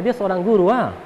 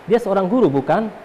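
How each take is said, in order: First: Hint of Kupang speech with tag "ah"; Kupang dialect. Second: Said in the usual way. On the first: Shown as a demonstration. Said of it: "Kalau bahasa Kupangnya". (logat Kupang) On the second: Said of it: "Maka dia tanya".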